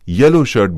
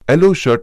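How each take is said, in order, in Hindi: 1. यह y व्यंजन ध्वनि से शुरू होता है। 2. यह सादे e स्वर ध्वनि से शुरू होता है। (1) "व्यंजन से प्रारंभ" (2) "स्वर से प्रारंभ"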